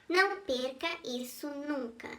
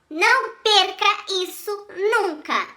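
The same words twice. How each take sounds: First: It is spoken softly and weakly. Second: It is spoken loudly and forcefully. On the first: "falei fraco" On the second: "eu falei forte"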